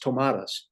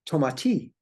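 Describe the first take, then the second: First: The name is pronounced the English way. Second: The name is pronounced the French way. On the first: "the way that we pronounce it in English is" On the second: "in French, I understand that it is pronounced"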